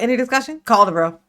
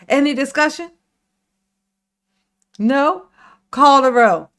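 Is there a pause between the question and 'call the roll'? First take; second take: no; yes. First: The two phrases run together without a pause. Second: There is a pause between the two phrases.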